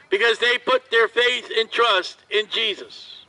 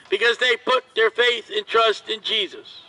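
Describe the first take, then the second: No difference in how they are said.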